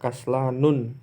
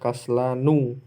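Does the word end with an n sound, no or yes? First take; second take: yes; no. First: The word ends with an added n sound. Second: The word ends on a vowel without n. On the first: The speaker calls it wrong. "Tidak boleh kita baca kaslanun" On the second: The speaker calls it right. "cara membaca yang benar adalah kaslanu"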